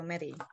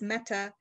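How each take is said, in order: First: The name rhymes with the word Betty. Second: The name is said the Danish way. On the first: This is how the family says the name. "pronounced it to rhyme with Betty, so Mette" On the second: This is how the name is meant to sound. "it's a Danish name, and it's supposed to be pronounced Mette"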